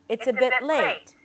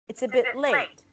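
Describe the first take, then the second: No difference in how they are said.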